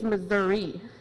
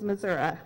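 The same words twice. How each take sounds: First: The final vowel sounds like 'ee'. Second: The final vowel sounds like 'ah'. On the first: This is how the friend says it. "no, no, no" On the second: This is how the grandfather's rural area says it. "that's what my grandpa said"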